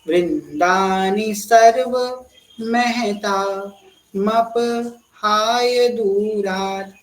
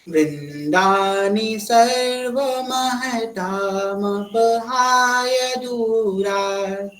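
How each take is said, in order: First: It is broken into parts with pauses. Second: It is said smoothly together without pauses.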